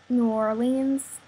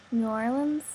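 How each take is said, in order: First: "New Orleans" said slowly as new or-LEENZ, every syllable full. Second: "New Orleans" run together as new-LUN, rising at the end; clipped New Orleans. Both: Shown as a demonstration. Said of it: "doing the accent tag".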